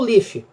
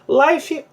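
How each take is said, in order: First: The vowel is a plain 'ee', like 'leaf'. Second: The vowel is a diphthong, like 'life'. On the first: The speaker calls it right. "a pronúncia correta seria Leaf, exatamente como é escrita no português" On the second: The speaker calls it wrong. "o pessoal pegou o hábito aí de falar em bateria Life"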